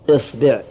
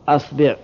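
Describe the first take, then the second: First: The word begins with the vowel i. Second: The word begins with the vowel a.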